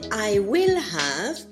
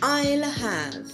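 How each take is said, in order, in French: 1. Will se prononce en entier, comme un mot séparé. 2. Will est raccourci et collé à I. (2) "raccourci à un L, double L qui se prononce I'll"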